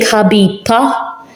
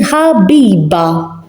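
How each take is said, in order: First: The final consonant is a voiceless p sound. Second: The final consonant is a voiced b sound. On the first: The speaker calls it wrong. "I'm not saying Habiba" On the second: The speaker calls it right. "I'm saying Habiba"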